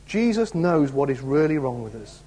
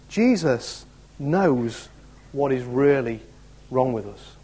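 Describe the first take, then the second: First: Said in the usual way. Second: Each phrase stretched very slowly with pauses; slow emphatic. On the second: Shown as a demonstration. Preacher pressing the point to the congregation, slow and weighty. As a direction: drive home Jesus knows slowly.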